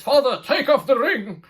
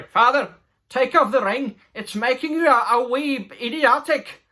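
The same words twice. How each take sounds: First: Laughing through the line. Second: Higher, louder mock pleading son; hammed-up plea from the son. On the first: Retold or imitated. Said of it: "He says". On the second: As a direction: beg your father like a mocked young dwarf. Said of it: "no, s-, sorry".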